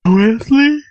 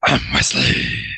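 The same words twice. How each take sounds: First: High loud squeaky name call; different voice. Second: Low, slow lightly voiced Batman. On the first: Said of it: "In a different voice". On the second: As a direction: drop it low and slow like a hero. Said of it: "that was supposed to be, "I'm Batman". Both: Shown as a demonstration.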